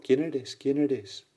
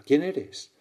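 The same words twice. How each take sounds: First: Higher call repeated like an echo; imitated echo. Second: Higher, louder amazed call; astonished question. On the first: Mountain echo answers the boy, imitated echo. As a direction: bounce the question back, slightly softening. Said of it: "Y de nuevo el eco". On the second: Acted. Boy calls to the unseen voice, astonished question. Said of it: "El niño asombrado pregunta".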